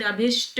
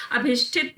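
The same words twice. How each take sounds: First: अभिष्ट ending on "-sht"; no "-it" after the "sht" of अभिष्ट; the short form अभिष्ट; correct ending. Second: अभिष्ठित ending "-shthit"; the mistaken form अभिष्ठित; wrong ending. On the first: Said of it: "अभिष्ट होता है". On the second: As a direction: add "-it" at the end of अभिष्ठित. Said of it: "अभिष्ठित नहीं होता". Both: Shown as a demonstration.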